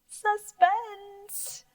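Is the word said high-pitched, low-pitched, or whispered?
high-pitched. The word is spoken in a high pitch. "if you're really scared, you might say it high"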